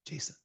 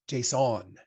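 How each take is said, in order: First: Said in the usual way. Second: Json as a French word, stress on the end; French-sounding json. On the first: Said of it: "It is Jason". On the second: Shown as a demonstration. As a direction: json with a mock French nasal ending. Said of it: "It's not French".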